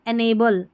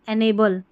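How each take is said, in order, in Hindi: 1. पहला अक्षर 'en' जैसा सुनाई देता है। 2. पहला अक्षर 'en' जैसा सुनाई देता है।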